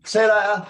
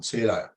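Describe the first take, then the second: First: See you later called out much higher and louder; loud goodbye. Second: Said in the usual way. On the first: Shown as a demonstration. Bouncer calling after the leaving customer, loud and high. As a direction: shout the goodbye after him as he leaves. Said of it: "But like that as he's walking out". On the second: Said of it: "like that as he's walking out".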